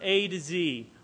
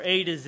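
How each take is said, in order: First: The last letter is said as zee, American style. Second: The last letter is said as zed, Australian style.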